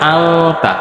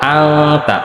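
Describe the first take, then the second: First: A hidden nasal sound comes before the t. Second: A hidden nasal sound comes before the t.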